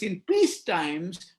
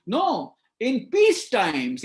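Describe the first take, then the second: First: Slow "peace times" with peace lifted, rising; stress on peace. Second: Slow "peace times" with peace stressed, falling. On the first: Speaker repeats his point, slow rising stress on peace. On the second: Speaker drives home his point, slow stress on peace. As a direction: lean slowly on "peace" and let it drop. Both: Shown as a demonstration. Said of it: "repeated phrase".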